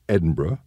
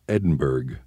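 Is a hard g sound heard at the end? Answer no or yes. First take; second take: no; yes. First: The ending is said without a g sound. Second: The ending is said with a clear g sound. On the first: This is the name of the city in Scotland. "The Edinburgh in Scotland has somewhat of a silent G and H at the end" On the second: This is the name of the town in Texas. "The one in Texas has no H, but does pronounce the G"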